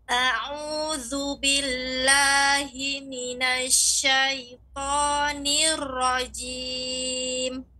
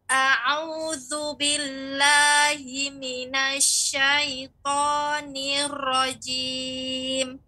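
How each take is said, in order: The two takes are said the same way.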